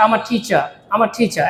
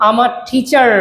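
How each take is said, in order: First: "টিচার" ending in "cha", r dropped; silent final r. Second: "টিচার" with the final r fully pronounced; sounded final r. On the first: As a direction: let "টিচার" end on an open "ah". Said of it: "আর উচ্চারণ silent হয়ে যায়". ("টিচার" এর শেষের "র" প্রায় অনুচ্চারিত) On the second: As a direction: hold the r at the end of "টিচার". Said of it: "টিচার বলা দরকার নাই". ("টিচার" এর শেষের "র" স্পষ্ট উচ্চারণ) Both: Shown as a demonstration.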